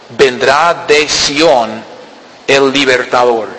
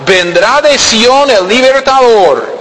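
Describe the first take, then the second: First: Lower, slower restatement of "Vendrá de Sión el libertador"; slow low explanation. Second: High, slow proclaiming of "vendrá de Sión el libertador"; raised, slowed scripture proclamation; scripture reading. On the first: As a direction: repeat "Vendrá de Sión" low and very slow, stretching each word. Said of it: "¿Cuándo?". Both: Acted.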